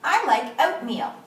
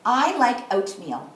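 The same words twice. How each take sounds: First: Smooth reading. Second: Slow modelled quote. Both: Shown as a demonstration. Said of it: "should be smooth and fast".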